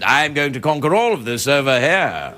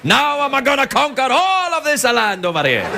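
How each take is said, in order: First: It is said in an English accent. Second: It is said in an Italian accent.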